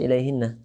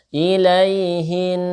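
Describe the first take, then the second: First: The word ends with an added final vowel. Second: The word ends on a held nasal sound. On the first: The speaker calls it wrong. "ini jangan dibaca ilaihinna" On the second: The speaker calls it right. "maka dengungnya tetap ilaihin"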